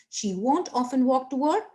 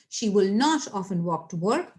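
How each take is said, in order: First: Won't said as one contracted word; contracted form. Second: Will not as two full words, NOT stressed; uncontracted form. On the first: Teacher reading the contraction for students, won't as one word. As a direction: run will and not together as won't. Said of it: "like this is the contraction". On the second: Teacher reading the full form, stressed not after will. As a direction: separate will not and lean on not. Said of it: "but if I'll read like this". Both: Shown as a demonstration.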